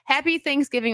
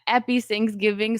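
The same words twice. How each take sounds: First: It is said in the speaker's plain accent. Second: It is said in a put-on French accent.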